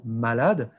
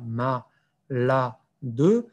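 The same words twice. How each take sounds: First: Said in the usual way. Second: "ma, la, de" split by clear pauses; dictation-style "ma, la, de", each syllable alone. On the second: Shown as a demonstration. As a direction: break "ma, la, de" into three separate syllables. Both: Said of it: "décomposer le mot en syllabes".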